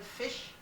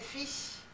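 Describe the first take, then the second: First: The word ends with an sh sound. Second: The word ends with a plain s sound. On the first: "instead of fish" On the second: "they didn't say the S H. They said fish"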